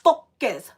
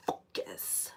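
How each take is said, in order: First: Focus pushed out louder and fully voiced; forced out. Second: Word comes out as a voiceless breath; voice failing. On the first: Sick reader retrying, louder Focus. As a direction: force the word Focus through. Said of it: "I can't say it". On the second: Sick reader losing her voice, voiceless focus. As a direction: lips too dry to voice it. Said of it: "I can't say it. My lips are so dry". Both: Real, not acted.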